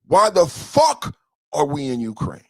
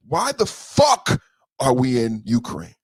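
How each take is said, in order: First: Said in the usual way. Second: Slow, stressing fuck hard; slow emphatic question. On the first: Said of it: "repeated take". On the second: Real, not acted. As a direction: drag out Why the fuck, hitting fuck. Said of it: "repeated, slower then plain".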